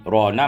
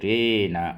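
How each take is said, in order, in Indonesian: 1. Vokal setelah r adalah a terbuka. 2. Vokal setelah r condong ke e. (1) "Jadi rona" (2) "dengan mengimalahkan fathah ra dan alif"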